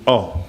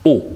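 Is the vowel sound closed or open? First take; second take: open; closed. First: The vowel is said open. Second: The vowel is said closed. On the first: The letter carries no accent. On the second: The letter carries a circumflex accent.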